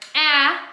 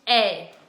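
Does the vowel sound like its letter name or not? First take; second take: not name; letter name. First: The vowel is short, unlike the letter's name. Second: The vowel sounds like the letter's own name.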